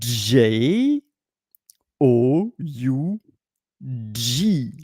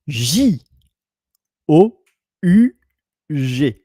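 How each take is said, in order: First: The letter names are said the English way. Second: The letter names are said the French way. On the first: "In English, you pronounce it" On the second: "In French, you pronounce it"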